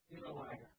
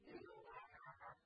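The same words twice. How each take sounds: First: It is said calmly, without intensity. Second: It is said with strong intensity.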